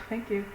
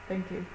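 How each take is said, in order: No difference in how they are said.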